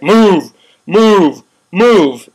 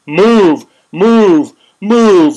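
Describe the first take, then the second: First: Loud barked command, each move hit hard; mock police order. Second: Loud barked move, each word hammered; stormtrooper orders. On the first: Mocking riot police ordering protesters out, loud barked commands. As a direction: bark it like a cop clearing the park. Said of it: "inappropriate just to be like". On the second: Retold or imitated. Mocking riot police as stormtroopers, loud barked commands. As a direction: shout it like a stormtrooper advancing. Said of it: "Stormtroopers coming at you".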